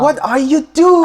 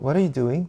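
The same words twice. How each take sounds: First: It sounds like an incredulous, exasperated reaction. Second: It sounds like a plain, curious question. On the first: The other person is doing something absurd. "상대방이 뭔가 황당한 행위를 한다거나 그러면 ... 이렇게 얘기하잖아요" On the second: The speaker simply wants to know the activity. "뭐 하고 있냐고 물어볼 때도 있지만"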